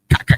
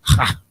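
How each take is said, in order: First: It begins with a hard k sound. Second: It begins with a throaty h sound. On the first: The speaker calls it wrong. "A lot of y'all still saying ka" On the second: The speaker calls it right. "It's ha. Like you hawking up some spit"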